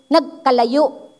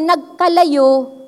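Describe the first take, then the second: First: The stress is on the last syllable. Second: The stress is not on the last syllable.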